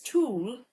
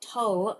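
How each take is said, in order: First: The vowel is a long 'oo' sound. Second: The vowel is a short 'uh' sound. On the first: The speaker calls it right. "It's tool" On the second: The speaker calls it wrong. "not tull"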